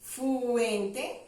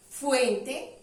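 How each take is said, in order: First: "Fuente" with a drawn-out "Fuu"; primera sílaba alargada. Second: Said in the usual way. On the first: Shown as a demonstration. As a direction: stretch the opening of "Fuente" so its first sound can be heard. ("Fuente" alargando el "Fu" inicial) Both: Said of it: "No suena la sílaba fi".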